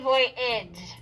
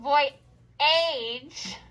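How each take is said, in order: First: The second syllable has a short, reduced vowel. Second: The second syllable has a clear long A vowel. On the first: This is how the word is normally spoken. "but we say voyage" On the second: This is a spelling aid, not everyday speech. "we're going to think voyage"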